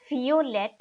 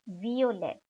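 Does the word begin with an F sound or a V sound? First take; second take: F sound; V sound. First: The word begins with an F sound. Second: The word begins with a V sound. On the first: The speaker calls it wrong. "not violet" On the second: The speaker calls it right. "the pronunciation of the V alphabet remains like in the English"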